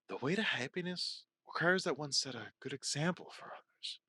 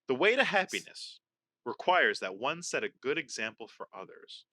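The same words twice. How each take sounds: First: It is said in a sexy, seductive tone. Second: It is read in a plain, neutral tone.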